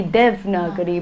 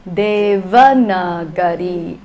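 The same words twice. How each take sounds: First: Devnagari said short, with the middle a dropped; Hindi pronunciation. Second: Devanagari slow, every a sounded, louder; Sanskrit pronunciation. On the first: Teacher contrasting Hindi and Sanskrit forms of the word, Hindi version. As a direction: clip it to Devnagari, Hindi style. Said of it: "In Hindi". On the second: Teacher contrasting Hindi and Sanskrit forms of the word, full Sanskrit version. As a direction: give Devanagari all its syllables slowly. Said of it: "but in Sanskrita". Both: Shown as a demonstration.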